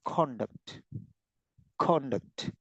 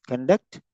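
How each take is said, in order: First: "conduct" as CON-duct, full first vowel, soft falling end; word stress on first syllable. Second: "Conduct" as cun-DUCT, weak first syllable; word stress on second syllable. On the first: Teacher showing meaning changes with stress, CONduct. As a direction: lean on the start of "conduct". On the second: Teacher showing meaning changes with stress, conDUCT. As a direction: lean on the end of "Conduct". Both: Shown as a demonstration. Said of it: "where you are giving stress".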